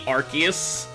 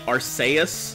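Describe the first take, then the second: First: The c is said as a K sound. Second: The c is said as an S sound. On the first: The speaker calls it wrong. "it wouldn't necessarily be Arceus" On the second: The speaker calls it right. "I'm putting the emphasis on the C, where the C would be an S sound"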